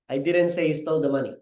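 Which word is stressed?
none. It is said flat, with no word stressed. "That's very flat, walang pronunciation, walang proper delivery"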